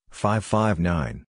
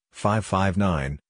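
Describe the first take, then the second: No difference in how they are said.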